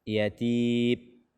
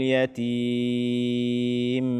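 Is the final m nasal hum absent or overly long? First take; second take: absent; overly long. First: The final m has no nasal hum. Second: The final m hum is held too long. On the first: "sehingga tidak ada suara yang keluar dari hidung" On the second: "ini sudah berlebihan di dalam memberikan hak gunnahnya"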